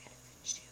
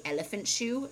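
First: Very soft imitated whisper; quiet whisper. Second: Said in the usual way. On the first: Imitating husband dodging "I love you", whispered. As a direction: whisper it really quietly, mimicking him. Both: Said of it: "he'd whisper it really quietly".

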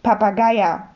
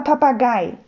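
First: "Papageier" with an added -er ending; wrong word ending. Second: "Papagei" ending cleanly on -gei; correct word ending. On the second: Herr Mohn corrects the Sams, clearly saying "Papagei". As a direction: say "Papagei" with no -er after it. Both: Acted. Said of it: "nicht Papageier".

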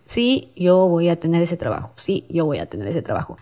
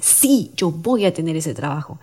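First: Half-hearted, fading affirmation; without conviction. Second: Emphatic, determined affirmation; with conviction. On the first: Host showing how not to say an affirmation, without conviction. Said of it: "no lo vas a decir". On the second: Host showing how to affirm a wish, with conviction. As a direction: stress the SÍ and mean every word. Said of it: "A comparación de cómo lo dices". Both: Shown as a demonstration.

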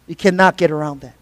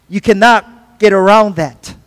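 First: Much softer and lower, leaning on "cannot"; hushed echo stressing "cannot"; quiet repeat. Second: Slow and deliberate, leaning on "get"; slow, emphatic "You cannot get around that"; slow firm emphasis. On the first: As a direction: drop to a low, soft echo of the line. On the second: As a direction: spell it out firmly, stressing "get". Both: Shown as a demonstration.

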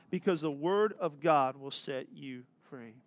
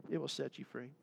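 First: Said in the usual way. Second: A hushed echo of the promise; soft echo. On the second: Shown as a demonstration. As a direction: repeat "It will set you free" much softer, almost to yourself.

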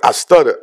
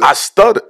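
First: Said in the usual way. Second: Raised, lilting confession; high stutter confession. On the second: Retold or imitated. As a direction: lift it up high.

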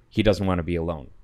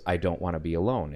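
First: Fast, cold and flat, no feeling in it; cold partner reporting the boy's plea matter-of-factly. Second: Put-on fast, softer, lightly tearful boy's plea; half-hearted sad child voice; a touch of crying. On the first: Retold or imitated. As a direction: state it like a plain fact, closed off. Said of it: "matter-of-factly". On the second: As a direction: narrator voicing the lonely ghost boy, mildly tearful. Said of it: "and he's crying".

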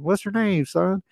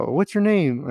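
First: Put-on high-pitched big Southern accent. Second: Said in the usual way. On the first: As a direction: imitate an old man's Southern twang. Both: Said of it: "he had a big Southern accent".

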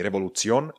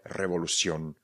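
First: "revolución" with the c said as ts, rising; the wrong reading of "revolución", c as in Czech; Czech-style ts. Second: "revolución" said revolu-sion, falling; soft s for c. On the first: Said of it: "proto to není revolución". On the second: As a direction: correct model of "revolución" with c as s. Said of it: "c a i vyslovujeme jako si". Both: Shown as a demonstration.

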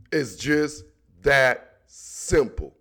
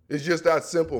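First: Slow, lower, final-word delivery; slow emphatic repeat. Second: Said in the usual way. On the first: Shown as a demonstration. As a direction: drag it out slowly, lower. Repeating the closing line for emphasis.

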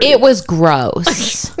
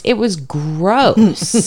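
First: Gross said slowly with a rise; slow drawn-out gross. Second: Gross said very slowly; slow drawn-out gross. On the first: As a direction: draw out it was gross, rising end. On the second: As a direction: stretch out it was gross slowly. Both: Real, not acted.

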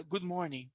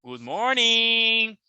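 First: Said in the usual way. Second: "Good morning" stretched out, held on "morning"; imitated intonation. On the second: Shown as a demonstration. Teacher contrasting "Good morning" for students, "morning" long and sustained. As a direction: draw out "morning" on a sustained note. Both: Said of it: "Olha a diferença".

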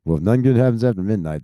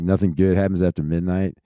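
First: Fast, sarcastic parroting of "nothing good happens after midnight"; mocking repeat. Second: Said in the usual way. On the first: Shown as a demonstration. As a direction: rattle off the saying to ridicule it. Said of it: "that's the dumbest shit I've ever heard". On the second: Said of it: "the saying".

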